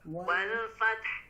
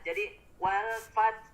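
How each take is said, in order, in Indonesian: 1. Bunyi h di akhir dilepas dengan hembusan yang terdengar. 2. Kata berakhir dengan t tanpa h. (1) "Ada keluar hamesnya" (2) "Jangan sampai tidak keluar. Jadi malah atau hanya terbacanya huruf tak sukun saja"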